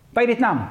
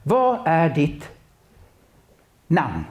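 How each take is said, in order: First: Said in the usual way. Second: Slow, drawn-out question with long pause before namn; unhurried, solemn asking. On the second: Shown as a demonstration. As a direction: ask it slowly, letting the pause hang. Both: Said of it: "för Jesus gör det".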